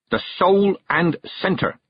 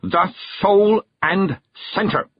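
First: "The soul and centre." said slowly, weight on "soul"; slowed emphasis. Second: "The soul and centre." hammered out word by word, very slow, high; hammering out the words. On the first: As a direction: lean on "soul" and "centre", slow. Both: Acted. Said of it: "hammering out the words".

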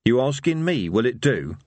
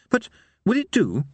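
First: Rough-and-ready echo of the question; incredulous villain. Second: High, hesitant minstrel question; faraway, uncertain. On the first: Harry echoing the minstrel's question, incredulous. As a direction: throw the question back, dropping at the end. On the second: Minstrel asking Harry's opinion of his music, faraway. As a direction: ask it dreamily, pitched well up. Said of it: "said the minstrel in a faraway voice". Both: A narrator's reading.

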